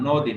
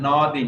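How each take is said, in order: First: নদী as "nodi", louder, with a rounded "o"; correct pronunciation. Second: নদী with an open "aw", like "nawdi"; wrong pronunciation demo. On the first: Teacher correcting students to নদী, emphatic o sound. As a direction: stress a closed ও after ন in নদী. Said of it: "নয় ওকার দিলে যেরকম উচ্চারণ". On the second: Teacher showing students the wrong নদী, open first vowel. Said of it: "এখানে নদী না". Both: Shown as a demonstration.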